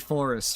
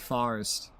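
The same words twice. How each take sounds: First: Forest is said in a general American accent. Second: Forest is said in a New York accent. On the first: "we don't say forest" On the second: "In New York City, we say forest"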